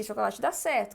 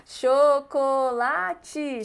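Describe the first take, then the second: First: Said in the usual way. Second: Chocolate said slowly, each syllable separate; slow cho-co-la-te; syllables spelled out. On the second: Shown as a demonstration. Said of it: "comida com quatro sílabas".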